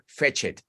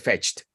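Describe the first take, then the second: First: The ending is said as a separate extra syllable. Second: The ending joins the word as one syllable. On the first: The speaker calls it wrong. "si fuera en realidad otra sílaba extra, sería fetched" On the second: The speaker calls it right. "pronunciación es simplemente fetched. Esto es una sílaba"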